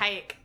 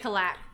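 First: The middle consonant is a Y sound. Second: The middle consonant is an L sound. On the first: This is the French way the winery says it. "Two L's yeah. are yeah. pronounced like a Y" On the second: This is the way the family says it. "But we say kalak"

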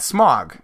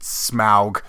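First: The name is said like the word 'smog'. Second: The name is said with a 'smowg' vowel. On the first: This is how the speakers prefer to say the name. "Screw that" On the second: This is how the films say the name. "in the movies they pronounce it Smaug"

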